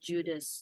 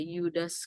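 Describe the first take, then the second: First: The name begins with a J sound. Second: The name begins with a Y sound. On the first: The speaker calls it right. "Tapi sebetulnya itu uh, Judas ya" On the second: The speaker calls it wrong. "ada yang membacanya sebagai Yudas"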